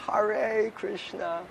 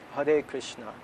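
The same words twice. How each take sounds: First: Hare is said with an r sound. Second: Hare is said with a d sound. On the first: The speaker calls it wrong. "New Yorkers are like" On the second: The speaker calls it right. "pronounce it Hade, like with a D"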